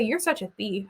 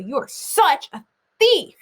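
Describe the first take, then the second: First: Said in the usual way. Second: Teacher showing the class how to read the italics; stressed italics. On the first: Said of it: "So I don't say". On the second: Shown as a demonstration. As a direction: give "You are such a thief" extra oomph. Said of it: "I say".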